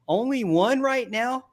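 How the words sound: The voice rises at the end, like a question.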